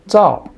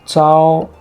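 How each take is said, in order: First: The pitch falls sharply from high to low. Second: The pitch stays high and level. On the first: "Fourth tone is the easiest one" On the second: "First tone"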